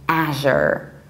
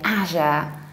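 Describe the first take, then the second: First: It is said with an American pronunciation. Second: It is said with a British pronunciation. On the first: "in the American one, we say azure" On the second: "in the British accent we say azure"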